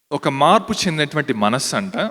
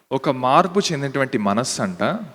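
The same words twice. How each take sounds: Both takes have the same delivery.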